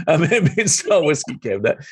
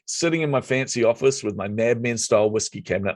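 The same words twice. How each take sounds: First: Higher, laughing through "Mad Men style whiskey cabinet"; amused, proud repeat of "Mad Men style whiskey cabinet". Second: Said in the usual way. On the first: Real, not acted. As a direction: relish the phrase with a laugh, pitched up. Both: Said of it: "I was very proud of that cabinet".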